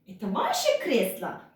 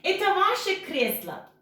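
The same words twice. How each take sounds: First: It is said with questioning intonation. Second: It is said with plain statement intonation. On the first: It asks whether this is your armchair. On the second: It states that this is your armchair.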